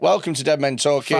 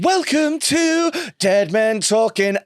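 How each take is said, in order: First: It is said in a flat, low-energy way. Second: It is said in a lively, enthusiastic way. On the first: The speaker calls it wrong. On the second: The speaker calls it right.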